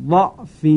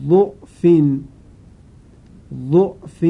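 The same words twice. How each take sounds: First: ضعف said with open a vowel on the first letter; ضعف with fatha. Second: ضعف said with u vowel on the first letter; ضعف with damma. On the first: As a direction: recite ضعف as da'f. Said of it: "وجه اول با فتحه". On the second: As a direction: recite ضعف as du'f. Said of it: "وجه دوم با ضمه". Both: Shown as a demonstration.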